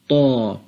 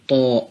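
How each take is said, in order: First: It ends on an open vowel. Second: It ends with a glottal stop. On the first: The speaker calls it right. "In the Holy Quran, we shall say" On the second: The speaker calls it wrong. "we never spell al-hamza that comes at the end of this letter... These are all wrong"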